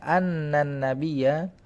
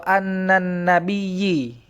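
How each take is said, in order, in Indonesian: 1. Kata terakhir diakhiri dengan vokal a. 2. Kata terakhir diakhiri dengan vokal i. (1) "Fathah ya benar" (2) "itu pasti salah"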